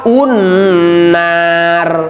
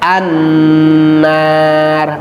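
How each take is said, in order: First: The word starts with a u vowel. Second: The word starts with an a vowel. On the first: The speaker calls it wrong. "jangan dibaca begini" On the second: The speaker calls it right. "harus dibaca fathah"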